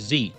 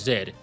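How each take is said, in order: First: The letter is said the American way, 'zee'. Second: The letter is said the British way, 'zed'.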